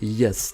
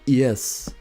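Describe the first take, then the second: First: The vowel is a plain, ordinary 'e' sound. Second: The vowel is a posh, 'i'-like sound. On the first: "They don't say yes" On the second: "they say yes with an I"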